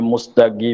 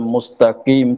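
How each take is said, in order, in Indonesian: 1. Konsonan tengahnya adalah bunyi g yang keras. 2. Konsonan tengahnya adalah bunyi q yang dalam.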